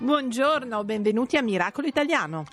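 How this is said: It is said in a cheerful voice.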